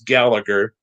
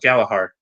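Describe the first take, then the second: First: The surname is said the usual American way. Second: The surname is said the Irish way. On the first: This is how people here would say it. "you would think it's Gallagher" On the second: This is how people in Ireland say it. "in Ireland they would call it Galahar"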